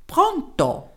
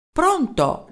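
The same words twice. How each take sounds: First: Put-on Pronto? in a high little German accent; a tiny German professor's Pronto?; small German-accented voice. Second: Shouted into the phone. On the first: Professor answering the mayor's call, small German-accented voice. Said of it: "Una vocina dal tipico accento tedesco". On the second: Acted. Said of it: "gridò Merelao nella cornetta".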